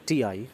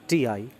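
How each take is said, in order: Both takes have the same delivery.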